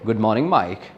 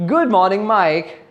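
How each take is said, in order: First: The greeting sounds flat and plain. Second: The greeting sounds cheerful and pleasant. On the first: The speaker calls it wrong. "that doesn't suit, or that is not appropriate to that situation" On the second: The speaker calls it right. "a little more pleasant and a little more happy"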